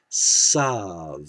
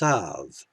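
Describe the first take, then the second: First: The word begins with an s sound. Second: The word begins with a th sound. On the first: "people pronouncing this as Sav" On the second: This is the historical pronunciation without a dagesh. "without a dagesh, would be Thav"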